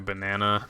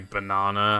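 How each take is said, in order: First: It is said with an American accent. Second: It is said with a British accent. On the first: "as opposed to banana" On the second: "go out of my way to say banana"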